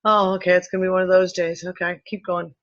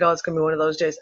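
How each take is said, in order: First: Quick unbothered sigh of acceptance; resigned shrug. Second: Resigned shrug. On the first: Now she just accepts the dizzy spell, brisk resigned shrug. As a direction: brush it off and move on. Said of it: "it's like". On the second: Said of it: "I was literally just like". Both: Retold or imitated.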